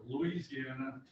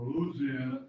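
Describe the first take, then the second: First: Louisiana said in full, as loo-EE-zee-ANN-uh; alternative pronunciation. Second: Louisiana shortened to LOOZ-ee-ANN-uh, punched louder; local pronunciation. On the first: Speaker offering club members ways to say the state, full five-syllable pronunciation. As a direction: give Louisiana its separate "ee" after "Loo". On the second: Speaker offering club members ways to say the state, punchy shortened pronunciation. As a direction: drop the "ee" after "Loo" in Louisiana. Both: Shown as a demonstration. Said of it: "depending on which you want to say".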